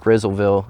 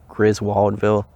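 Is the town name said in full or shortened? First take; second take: shortened; full. First: The name is shortened, with the middle sounds dropped. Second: The name is said in full, every syllable clear. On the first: This is how locals say it. The speaker calls it wrong. "they pronounce it Grizzleville around here" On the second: This is how the name is properly said. The speaker calls it right. "but it's pronounced Griswoldville"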